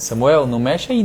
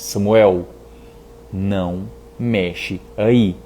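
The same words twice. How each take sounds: First: It is called out as if from far away. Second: It is spoken closely, as if face to face. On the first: The parent's authority stays distant from the child. "De longe é uma coisa" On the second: The parent's authority comes down to the child's level. "se eu abaixar, segurar aqui e falar assim"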